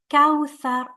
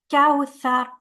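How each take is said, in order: First: The middle consonant sounds like th. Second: The middle consonant sounds like th.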